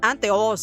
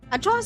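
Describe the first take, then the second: First: The sound after the n is t. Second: The sound after the n is ch. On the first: This is the original Spanish form of the word. "coming from the Spanish root word anteojos" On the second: This is the local Bisaya form of the word. "Anchojos is a Bisaya slang term"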